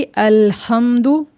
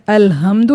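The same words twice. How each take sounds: First: अल्हम्दु drawn out slowly, breathy throat h; panting throat ha. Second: अल्हम्दु with an ordinary light h; wrong plain h. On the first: Teacher models the correct reading, breathy h in अल्हम्दु. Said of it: "हमें ये हाँफने वाला हा". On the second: Teacher shows learners the mistake to avoid, plain h in अल्हम्दु. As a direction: say अल्हम्दु without the panting throat sound. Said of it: "अल्हम्दु नहीं कहना है". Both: Shown as a demonstration.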